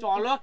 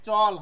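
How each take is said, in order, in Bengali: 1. শেষ ব্যঞ্জনধ্বনির পরে একটি স্বরধ্বনি উচ্চারিত হয়। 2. শব্দটি শেষ হয় শেষ ব্যঞ্জনধ্বনি দিয়ে। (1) "চলও কিন্তু কেউ করবে না, তাহলে কিন্তু ভুলটা হয়ে যাবে" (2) "চল হবে"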